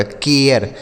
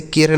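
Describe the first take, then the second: First: केयर with a glide from "e" into "yar"; केयर, opening into a schwa before the r; correct pronunciation. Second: केर with one long "e" straight into r; केर with a single pure vowel; wrong pronunciation. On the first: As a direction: say केयर with two vowel sounds, "ke-ar". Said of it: "और इसे क्या पढ़ा जाएगा". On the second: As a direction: say केर as "kay-r", no glide. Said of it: "इसे केर नहीं पढ़ा जाएगा". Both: Shown as a demonstration.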